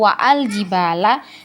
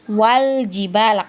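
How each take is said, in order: First: A glottal stop separates wa and al. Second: Wa runs straight into al with no glottal stop. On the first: The speaker calls it wrong. "kita bacanya bukan wa'ul jibala atau wa'al jibala" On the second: The speaker calls it right. "tapi wal jibala, karena hamzah wasolnya tadi ini sudah kita anggap tidak ada"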